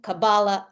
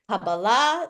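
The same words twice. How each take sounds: First: It is said with the Ashkenazic Hebrew pronunciation. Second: It is said with the Sephardic Hebrew pronunciation.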